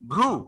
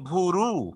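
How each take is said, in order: First: The two opening consonants are said together as a cluster. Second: An extra vowel separates the two opening consonants. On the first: "ভ এবং র একসাথে উচ্চারিত হয়" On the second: "অতিরিক্ত আবার একটি স্বরধ্বনি নিয়ে আসলাম"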